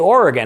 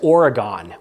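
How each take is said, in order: First: It is pronounced the way Oregon residents say it. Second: It is pronounced the way most Americans say it. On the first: This is how people living in Oregon say it. "If you live in Oregon, you say Oregon" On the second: This is how most of the country says it. "most of the United States says Oregon, which I'm told is completely incorrect"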